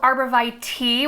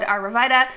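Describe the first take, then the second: First: It uses the standard pronunciation of the word. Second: It uses a local regional pronunciation of the word. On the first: "which I think is the proper pronunciation" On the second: "In our region, we've always said"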